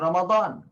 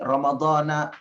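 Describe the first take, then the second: First: The word ends on a consonant, no final vowel. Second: The word ends with a final a vowel. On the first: "kita tidak memberi harokat"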